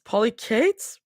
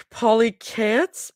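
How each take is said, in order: First: Polychaetes ending like "Kate's", questioning rise; unsure pronunciation. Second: Polychaetes ending like "cats", questioning rise; unsure pronunciation. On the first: Reader retries a word, unsure "Polychaetes" ending like "Kate's". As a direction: try "Polychaetes" with a long a in the last syllable. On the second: Reader puzzles over a word, unsure "polychaetes" ending like "cats". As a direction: try "polychaetes" with a short a in the last syllable. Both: Real, not acted. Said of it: "I don't know how to read".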